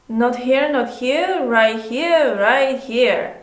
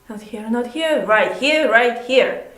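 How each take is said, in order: First: The energy stays flat and even throughout. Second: The energy changes and moves through the phrase. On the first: The speaker calls it wrong. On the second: The speaker calls it right.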